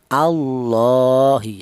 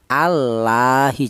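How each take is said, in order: First: The L sound is thick and heavy. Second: The L sound is thin and light. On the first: The speaker calls it right. "dibaca tafkhim atau dibaca tebal" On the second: The speaker calls it wrong. "Jangan dibaca tarkik"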